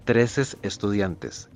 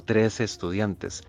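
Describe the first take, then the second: First: "trece estudiantes" said very slowly as "treces", an extra s on trece; wrong form shown. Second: "trece estudiantes" said slowly, trece with no final s; clearly spelling out "trece estudiantes", trece without s; correct model form. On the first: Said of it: "No decimos". (forma incorrecta, "treces" con ese añadida, muy despacio) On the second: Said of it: "lo correcto es decir". (pronunciación correcta, "trece" sin ese final, despacio) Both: Shown as a demonstration.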